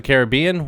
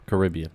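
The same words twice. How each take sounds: First: Caribbean as CARE-uh-BEE-un; care-uh-BEE-un pronunciation. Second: Caribbean as kuh-RIB-ee-un; second-syllable stress. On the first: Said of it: "when I'm seeing the movie". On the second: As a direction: put the weight on RIB in Caribbean. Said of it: "Every other time". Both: Shown as a demonstration.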